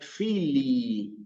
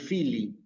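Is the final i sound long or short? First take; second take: long; short. First: The final i sound is drawn out long. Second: The final i sound is short and clipped. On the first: The speaker calls it right. "Ven que yo alargué la I" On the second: The speaker calls it wrong. "No digo solamente Fili"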